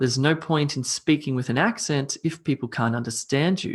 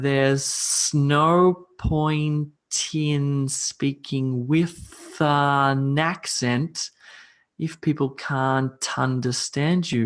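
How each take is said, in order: First: The sentence is read at normal speed. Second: The sentence is read very slowly. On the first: "read this one more time at a normal tempo" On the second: "I'm going to read it very slowly to you"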